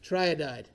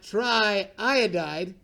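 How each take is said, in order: First: The vowel after 'tri' is said only once. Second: The vowel after 'tri' is said twice. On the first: The speaker calls it right. "You just eliminate that double vowel" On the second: The speaker calls it wrong. "Not triiodide. Because then I got that double"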